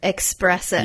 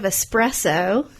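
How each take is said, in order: First: The word begins with an 'ex' sound. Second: The word begins with a plain 'es' sound. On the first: The speaker calls it wrong. "I hear espresso" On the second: The speaker calls it right. "instead of espresso"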